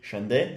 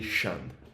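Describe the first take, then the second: First: The surname ends with an audible vowel sound. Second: The surname ends without any final vowel sound. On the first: The speaker calls it wrong. "Is that how you say it?" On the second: The speaker calls it right. "Without the E"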